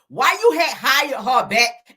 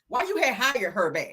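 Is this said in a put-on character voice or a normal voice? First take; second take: character voice; normal voice. First: It is said in a put-on character voice. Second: It is said in the speaker's ordinary voice.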